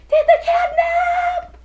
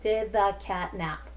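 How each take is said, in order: First: It is said with excitement and strong emphasis. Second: It is said flatly, as a plain statement.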